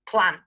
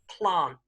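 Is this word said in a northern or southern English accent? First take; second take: northern; southern. First: It is said in a northern English accent. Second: It is said in a southern English accent. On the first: "one more example of the north" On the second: "the south of England pronunciation"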